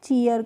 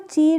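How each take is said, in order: First: The word ends in a drawn-out yer sound. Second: The word ends in a short, plain r sound. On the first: The speaker calls it right. "चीयर करके पढ़ते हैं" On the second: The speaker calls it wrong. "इसको चीर नहीं पढ़ते हैं"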